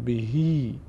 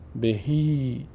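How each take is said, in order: First: The word ends with an ee vowel sound. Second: The same.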